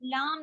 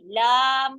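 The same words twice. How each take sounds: First: The letter name sounds nasal. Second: The letter name sounds clear, not nasal. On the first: The speaker calls it wrong. "लाम नहीं" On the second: The speaker calls it right. "लाम क्लियर होगा, नाक में आवाज नहीं जाएगी"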